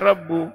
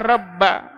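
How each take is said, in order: First: The word ends with a 'u' vowel. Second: The word ends with an 'a' vowel. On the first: The Lord is the one who speaks. The speaker calls it right. "mesti dibaca rabbu" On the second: The Lord is the object of the speaking. The speaker calls it wrong. "tidak mungkin dibaca rabba"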